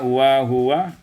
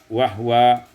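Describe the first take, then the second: First: The h is followed by a u vowel. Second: The h has no vowel after it.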